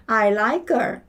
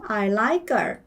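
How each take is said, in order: No difference in how they are said.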